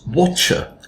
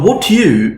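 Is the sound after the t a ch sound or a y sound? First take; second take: ch sound; y sound. First: The t and y merge into ch. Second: The t and y are said separately.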